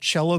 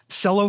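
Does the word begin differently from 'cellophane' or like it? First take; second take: differently; like cellophane. First: It begins with a different sound from cellophane. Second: It begins with the same sound as cellophane. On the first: "both cello and cello are correct pronunciations" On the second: "Cello for cellophane"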